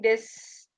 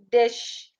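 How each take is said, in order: First: The word ends with a plain s sound. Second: The word ends with a hushing sh sound. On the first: The speaker calls it wrong. "You're saying this" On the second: The speaker calls it right.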